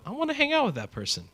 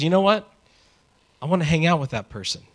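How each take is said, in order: First: High, airy lovestruck sigh; smitten. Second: Higher, quicker eager aside. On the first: Someone seeing a crush across the room, high and smitten. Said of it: "And you go". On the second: Someone spotting a person they like, eager and higher. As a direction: blurt it out like you've just found a new friend. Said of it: "Someone looks at you and says". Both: Acted.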